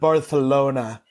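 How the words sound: It is said with a Castilian Spanish pronunciation. The speaker is showing off about having travelled. The speaker calls it wrong. "you got to talk like some douche who's been to Barcelona"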